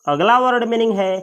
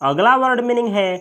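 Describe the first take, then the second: Both takes have the same delivery.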